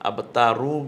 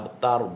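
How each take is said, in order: First: The word ends with a short vowel. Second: The word ends on a bare consonant. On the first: The speaker calls it wrong. "আবতারু না বলে" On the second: The speaker calls it right. "আবতার বলি"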